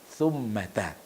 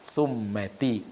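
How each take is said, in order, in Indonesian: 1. Kata itu berakhir dengan vokal 'a'. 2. Kata itu tidak berakhir dengan vokal 'a'. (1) "tapi summata" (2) "bukan summati"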